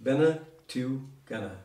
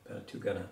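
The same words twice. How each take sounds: First: "Bene tu gana" said slowly, each syllable drawn out; slow it down so the learner catches "Bene tu gana". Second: Said in the usual way. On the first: Shown as a demonstration. Teacher repeats "Bene tu gana" slowly on request. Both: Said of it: "Can you pronounce that again?".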